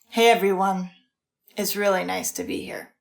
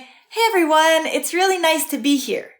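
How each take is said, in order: First: The voice sounds flat and unhappy. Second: The voice sounds warm and happy. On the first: The words contradict the real feeling. "her tone of voice and body language and facial expressions are saying something else" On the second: The speaker is glad to be there. "oh, she's happy to be here"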